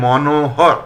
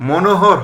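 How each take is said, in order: First: মনোহর said slowly as "mɔnohɔr"; drawn-out open "mɔ" opening মনোহর; correct open vowel. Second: মনোহর said as "monohɔr"; closed "mo" opening মনোহর; mistaken close o. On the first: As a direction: say মনোহর slowly, "maw-no-hawr". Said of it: "হবে". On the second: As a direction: say মনোহর with a rounded first o, "mo-no-hawr". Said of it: "হবে না". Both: Shown as a demonstration.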